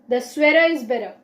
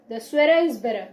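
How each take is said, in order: Both takes have the same delivery.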